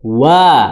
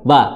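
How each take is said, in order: First: It starts with the lips pursed forward first. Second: It starts without the lips pursed first. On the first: The speaker calls it right. "Monyong dulu" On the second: The speaker calls it wrong. "bukan wa"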